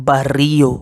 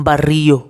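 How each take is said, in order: No difference in how they are said.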